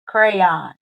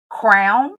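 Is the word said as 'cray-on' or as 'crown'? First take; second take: cray-on; crown. First: It is said as two syllables, cray-on. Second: It is said as one syllable, like crown. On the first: "Or do you pronounce it crayon? ... Cray as in cray, cray, but crayon" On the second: "do you pronounce it crown as in, oh, I know I'm a queen, where's my crown?"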